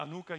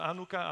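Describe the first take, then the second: First: "anuka" stressed in the middle; second pronunciation variant. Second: "anuka" stressed at the start; first pronunciation variant. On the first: Preacher unsure of pronunciation tries "anuka" as ah-NOO-ka. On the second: Preacher quotes how some say "anuka", stressed AH-noo-ka. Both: Shown as a demonstration. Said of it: "no sé cómo pronunciarlo correctamente".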